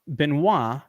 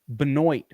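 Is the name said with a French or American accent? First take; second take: French; American. First: The name is said with a French pronunciation. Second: The name is said with an American pronunciation.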